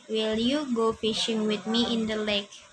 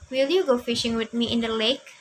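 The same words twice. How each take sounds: First: It is read flatly, without marked emphasis. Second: It is read expressively, with marked emphasis. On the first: The speaker calls it wrong. "Jadi Marisa tadi bacanya number one ini contohnya seperti ini" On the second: The speaker calls it right. "contohnya yang benarnya seperti ini. Ya, ada penekanannya"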